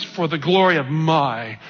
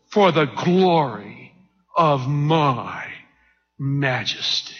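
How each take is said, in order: First: Said in the usual way. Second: Drawn out slowly, a pause before each phrase; slow, self-glorifying. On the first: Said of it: "I say it slow". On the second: Acted. Preacher voicing the king glorying in his majesty, slow. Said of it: "I say it slow like he must have said".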